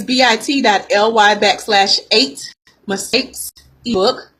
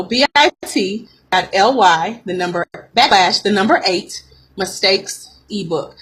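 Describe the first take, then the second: First: Said in the usual way. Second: Spelled out slowly, piece by piece; slow dictation. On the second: Real, not acted. Coach repeats the link for listeners, slowly. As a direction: say it slow, with breaks between the parts. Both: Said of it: "Let me say that slow".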